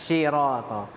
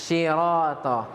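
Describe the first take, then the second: The two takes are said the same way.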